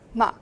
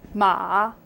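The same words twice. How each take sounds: First: It is said with the fourth tone. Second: It is said with the third tone.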